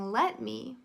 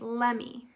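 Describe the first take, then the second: First: Both words are said fully and separately. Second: The words are run together quickly as one. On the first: "Instead of saying let me" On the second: "we say it quickly and say lemme"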